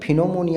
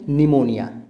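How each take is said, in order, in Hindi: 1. यह शब्द p की आवाज़ से शुरू होता है। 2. यह शब्द n की आवाज़ से शुरू होता है। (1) "अगर यहाँ पे पी साइलेंट नहीं होगा तो फिनोमोनिया हो जाएगा" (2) "पी साइलेंट"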